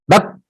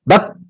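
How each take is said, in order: The two takes are said the same way.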